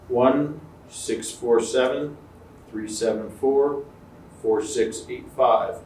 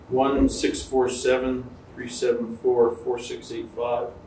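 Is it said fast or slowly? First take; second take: slowly; fast. First: The digits are said slowly in groups. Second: The digits are said quickly in one run.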